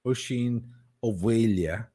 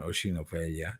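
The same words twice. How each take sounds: First: "Oisín O'Mhaile" said Irish-style: oh-sheen oh-VAY-lya; Irish pronunciation. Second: "Oisín O'Mhaile" said lower and softer, oh-sheen oh-VAY-lya; Irish pronunciation, softer. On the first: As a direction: give "O'Mhaile" the v sound and lya ending. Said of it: "in the original Irish". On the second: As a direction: repeat "O'Mhaile" gently with the v sound. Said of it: "which is the Old Irish version". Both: Shown as a demonstration.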